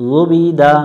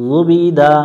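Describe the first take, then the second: Both takes have the same delivery.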